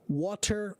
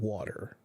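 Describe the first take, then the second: First: It is said slowly with a hard T sound. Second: It is said quickly with a soft D sound. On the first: "It is a T sound when you're speaking slowly and clearly" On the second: "the hard T becomes a soft D, like in the case of water"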